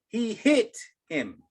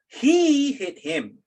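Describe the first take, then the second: First: The stress falls on the word hit. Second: The stress falls on the word he. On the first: The focus is on the act of hitting itself. "if you accent hit" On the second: The focus is on who did the hitting. "enunciate the he"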